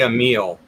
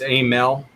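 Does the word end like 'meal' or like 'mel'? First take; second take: meal; mel. First: The second syllable sounds like 'meal'. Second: The second syllable sounds like 'mel'. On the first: This is how the speaker habitually says it. The speaker calls it wrong. "I say a meal" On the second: This is the accepted pronunciation. The speaker calls it right. "but it's it's a mel"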